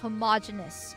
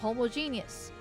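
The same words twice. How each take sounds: First: It is not split as 'homo' plus 'genius'. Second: It is split as 'homo' plus 'genius'. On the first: The speaker calls it right. "but no, it's homogeneous" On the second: The speaker calls it wrong. "I see the homo like homo sapien or homosexual, so I read that and then I say genius"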